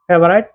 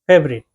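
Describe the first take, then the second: First: The last syllable sounds like 'right'. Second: The last syllable sounds like 'rit'. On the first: The speaker calls it wrong. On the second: The speaker calls it right.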